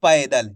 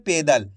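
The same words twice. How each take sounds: First: पैदल with open gliding "pai", falling; correct "ai" vowel. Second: पैदल said as "pedal", falling; wrong "e" vowel. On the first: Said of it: "तो अपन कैसे पढ़ेंगे?". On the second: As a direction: say पैदल with a pure "pe", no glide. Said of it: "इसको कैसे पढ़ रहे हैं?". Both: Shown as a demonstration.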